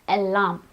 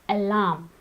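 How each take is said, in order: The two takes are said the same way.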